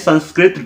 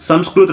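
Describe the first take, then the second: First: It sounds like sanskrit, with n and ri. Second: It sounds like samskrut, with m and ru. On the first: The speaker calls it wrong. "संस्कृत wrong है" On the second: The speaker calls it right. "संस्कृत right है"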